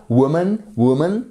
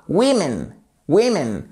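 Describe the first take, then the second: First: "woman" with a broad oo sound, WU-mun; "woman", stressed rounded WU, weak ending; wide first vowel. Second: "women" as WIM-in, drawn out slowly; "women", stressed WIM, weak ending; changed first vowel. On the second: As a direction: model "women" with a clear i first. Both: Shown as a demonstration. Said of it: "On passe d'un son qui est assez large".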